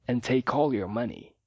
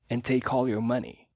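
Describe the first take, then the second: No difference in how they are said.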